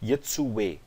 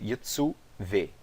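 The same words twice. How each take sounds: First: The middle letter is said as a u vowel. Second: The middle letter is said as a doubled v. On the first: The speaker calls it wrong. "eu não digo" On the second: The speaker calls it right. "eu pronunciei o vav"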